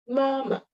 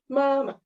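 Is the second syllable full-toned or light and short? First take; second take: light; light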